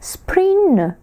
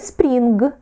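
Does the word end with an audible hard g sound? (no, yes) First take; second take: no; yes. First: The word ends with only a nasal ng sound. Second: The word ends with a hard g sound. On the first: The speaker calls it right. "Правильно? Spring. Бачите, н, наче в ніс віддаємо" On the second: The speaker calls it wrong. "не spring. Ні, це наша вимова"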